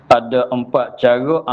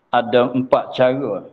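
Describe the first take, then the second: Both takes have the same delivery.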